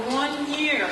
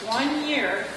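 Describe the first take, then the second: No difference in how they are said.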